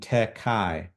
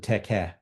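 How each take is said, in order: First: The second syllable ends in an 'eye' diphthong. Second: The second syllable ends in a plain 'eh' vowel. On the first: The speaker calls it wrong. "this is why Erasmian pronunciation is problematic. It would be tekai" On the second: The speaker calls it right. "the te and ke have a nice rhyming. We know that the the alpha iota was pronounced as uh, an epsilon"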